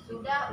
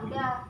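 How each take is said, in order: First: The word is said in full with an initial s. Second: The word is said without its initial s. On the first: This is the standard form. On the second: This is the casual slang form.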